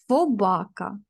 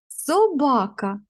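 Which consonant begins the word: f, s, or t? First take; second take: f; s. First: The word begins with an f sound. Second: The word begins with an s sound. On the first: The speaker calls it wrong. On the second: The speaker calls it right.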